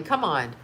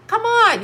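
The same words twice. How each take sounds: First: Said in the usual way. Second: Higher and louder exasperated come on; exasperated shout. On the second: Real, not acted. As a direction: throw it out, fed up. Disbelieving rant about celebrities.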